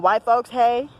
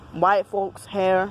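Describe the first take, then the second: First: The last word is said like 'hay', with no r. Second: The last word is said as 'hair', with an r.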